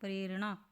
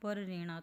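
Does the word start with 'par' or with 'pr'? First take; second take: pr; par. First: It starts with a 'pr' cluster, as 'prerna'. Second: It starts with 'par', split as 'par rena'. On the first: The speaker calls it right. "तो होता क्या है" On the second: The speaker calls it wrong. "अगर इसको आप पढ़ेंगे तो क्या बन गया"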